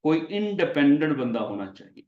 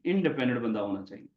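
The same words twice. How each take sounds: First: Teacher stressing independent for the class; stress on independent. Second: Said in the usual way. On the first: Shown as a demonstration. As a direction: lean on the word independent. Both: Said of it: "लफ्ज यहाँ पे हम बोला करेंगे".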